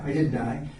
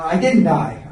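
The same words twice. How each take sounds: First: Softer, lower, slightly rising; a hushed aside to himself; murmured afterthought; quiet echo. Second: Firm, with weight on didn't; punchy declaration; emphatic. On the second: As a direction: plant the line squarely. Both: Real, not acted. Repeats the punchline.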